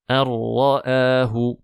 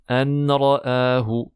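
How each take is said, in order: First: The n blends completely into the r. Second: A separate n sound comes before the r. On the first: The speaker calls it right. "Ici, il y a idgham, une assimilation complète" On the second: The speaker calls it wrong. "attention à ne pas dire"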